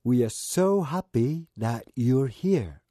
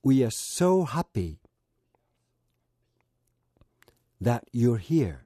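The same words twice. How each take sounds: First: "We are so happy that you're here." slowly, without a break; slow and even, one continuous line; whole phrase in one go. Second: "We are so happy", long pause, then "that you're here."; slow, with a long gap before "that you're here."; split into chunks. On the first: (区切らずにゆっくり一息で) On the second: ("We are so happy"で区切って言う) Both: Shown as a demonstration. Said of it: "最初は区切って言ってみます".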